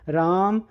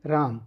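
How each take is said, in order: First: The name is shouted very loudly. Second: The name is called softly.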